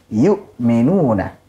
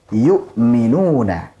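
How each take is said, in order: No difference in how they are said.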